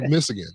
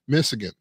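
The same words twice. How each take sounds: First: Michigan is pronounced in a deliberately distorted way. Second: Michigan is pronounced the ordinary, standard way. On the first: The speaker avoids truly naming the rival state. "if you listen very clearly, I'm saying Michigan" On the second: The rival state is named properly. "I'm not really saying Michigan"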